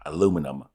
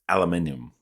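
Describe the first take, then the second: First: It is said the American way, four syllables. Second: It is said the British way, five syllables.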